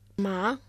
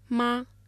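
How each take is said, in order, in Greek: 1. Λέγεται με τον δεύτερο τόνο. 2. Λέγεται με τον πρώτο τόνο. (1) "Μα με τον δεύτερο τόνο" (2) "Μα με τον πρώτο τόνο"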